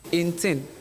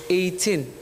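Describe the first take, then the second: First: The first part sounds like 'ain't'. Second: The first part sounds like 'eight'. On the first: The speaker calls it wrong. "you were saying eighteen" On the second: The speaker calls it right. "So it's eight, not ain't"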